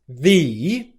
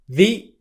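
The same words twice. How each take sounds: First: The vowel is a long 'ee' sound. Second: The vowel is a short 'ee' sound. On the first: "you take the long e sound" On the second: "make it without its length"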